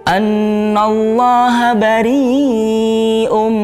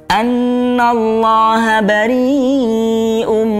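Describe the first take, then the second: No difference in how they are said.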